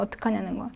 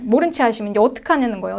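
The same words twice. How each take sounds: First: Much softer repeated question; soft echo. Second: Said in the usual way. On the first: Acted. Preacher echoing the question to himself, much softer. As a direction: let it fall away to near silence.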